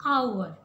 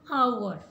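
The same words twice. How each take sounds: First: The word starts with a vowel, h silent. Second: The word starts with a vowel, h silent.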